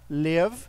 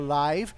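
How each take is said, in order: First: The vowel is short, like in 'give'. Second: The vowel is a diphthong, like in 'five'. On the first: It means to live or reside. "Nós podemos pronunciar live, que aí é o verbo morar, o verbo viver" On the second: It means broadcast in real time. "mas a pronúncia fica live, aí ela vai significar ao vivo"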